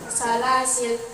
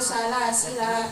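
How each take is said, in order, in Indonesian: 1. Vokal akhir dihilangkan. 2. Vokal akhir panjang. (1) "jika waqaf lanya bisa dibaca sukun" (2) "atau panjang satu alif"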